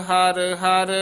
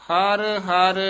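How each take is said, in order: No difference in how they are said.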